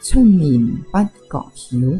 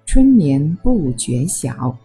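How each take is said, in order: First: It is spoken in Cantonese. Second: It is spoken in Mandarin.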